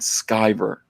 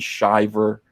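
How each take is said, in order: First: The surname begins with a sky sound. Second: The surname begins with a shi sound. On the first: The speaker calls it right. "My name is pronounced Ethan Van Sciver" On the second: The speaker calls it wrong. "not Ethan Shiver"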